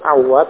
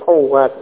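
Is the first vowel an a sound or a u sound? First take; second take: a; u. First: The first vowel is an a sound. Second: The first vowel is a u sound. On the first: The speaker calls it wrong. "bukan awat" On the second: The speaker calls it right. "tapi awat ya, dengan bomah pada ainya sebagai ralat"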